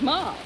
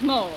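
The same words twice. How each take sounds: First: Mole said short, like doll; said as moll. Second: Mole with a long oh, like the animal. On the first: Guide corrects herself to moll with a short ah. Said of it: "I can't get a laugh with mole". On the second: Guide says mole with a long oh. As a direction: rhyme mole with hole. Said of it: "The word is mole". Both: Acted.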